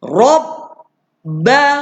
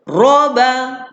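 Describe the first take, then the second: First: The b sound is held before the vowel. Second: The b sound passes quickly without holding. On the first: The speaker calls it right. "kita kena baca tahan dulu... dia sampai lambat sikit" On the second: The speaker calls it wrong. "Kalau ikut lalu shortcut, dia cepat sampai bunyi dia... tak jadi gitu"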